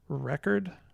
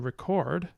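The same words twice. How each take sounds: First: The stress is on the first syllable. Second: The stress is on the second syllable. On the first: It is the noun. "with the stress here" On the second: It is the verb. "with the stress here on the second syllable"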